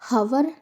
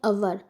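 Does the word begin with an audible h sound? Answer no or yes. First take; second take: yes; no. First: The word starts with an audible h sound. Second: The word starts directly with a vowel sound. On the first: The speaker calls it wrong. "हम हवर नहीं पढ़ते" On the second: The speaker calls it right. "पढ़ते हैं अवर"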